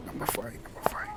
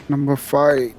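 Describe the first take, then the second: First: Whispered to himself; whispering. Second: Said in the usual way. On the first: Acted. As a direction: whisper it while searching. Muttering while searching seats.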